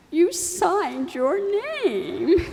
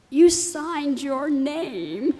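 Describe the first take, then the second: First: Higher, slow mock-tearful quote; teasing echo. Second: Very slow, higher words pushed out through tears; a tearful mother's slow halting answer; choked-up explanation. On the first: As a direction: throw her own words back at her playfully. Daughter mimicking mom's old line. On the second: Retold or imitated. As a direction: barely get it out through tears.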